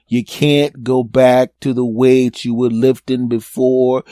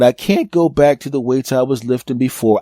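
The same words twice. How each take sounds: First: Slow, deliberate lecture to oneself; slow self-scolding. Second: Said in the usual way. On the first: Acted. Man telling himself to go lighter, slow and emphatic. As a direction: spell it out word by word, slowly.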